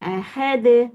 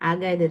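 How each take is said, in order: First: The middle consonant is an h sound. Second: The middle consonant is a k sound. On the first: The speaker calls it right. "அந்த ஹ தான் கேக்குறேன்" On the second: The speaker calls it wrong. "அகது தான் சொல்றீங்க"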